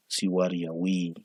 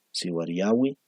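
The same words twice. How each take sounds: First: Slow siwariyawi with its vowels held long; vowel lengthening. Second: Said in the usual way. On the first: Shown as a demonstration. (siwariyawi despacio, alargando las vocales) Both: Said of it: "el alargamiento vocálico lo diferencia".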